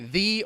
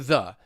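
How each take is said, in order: First: The word is said in its full form. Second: The word is said in its reduced form. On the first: "one strong" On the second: "one weak"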